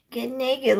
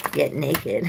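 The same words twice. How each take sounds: First: "Get naked" much higher, cheeky and teasing; high, cheeky, playful; playful tease. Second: Said in the usual way. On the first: Real, not acted. Repeated with playful lift.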